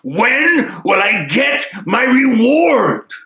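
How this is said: It is said in an angry tone.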